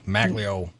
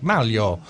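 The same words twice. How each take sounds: First: The name is pronounced in an anglicized way. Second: The name is pronounced in its native way. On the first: The speaker calls it wrong. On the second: The speaker calls it right. "he's like"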